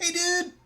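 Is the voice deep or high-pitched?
high-pitched. A high-pitched, nasal, throaty voice. "high voice, ... almost nasally, like very throaty, ... high pitched"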